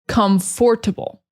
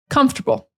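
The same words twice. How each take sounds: First: Every written syllable is pronounced separately. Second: The word is shortened, with syllables run together. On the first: This is how it is spelled and thought of while writing. "usually we think in our heads comfortable" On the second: This is how it is actually spoken. "But when we're speaking, we say comfortable"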